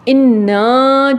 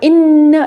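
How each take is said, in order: First: The final vowel is held long. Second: The final vowel is kept short. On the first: It means we, the first person plural. "ये जमा मुतकल्लम का सीगा है" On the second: It marks emphasis. "जो छोटा है जिसके साथ अलिफ नहीं लगा हुआ"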